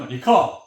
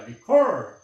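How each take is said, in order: First: The final r is dropped, no curled tongue. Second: The final r is pronounced with a curled tongue. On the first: "영국은 recur 이렇게 되겠지만" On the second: "미국에서는 혀를 굴려주는 소리입니다"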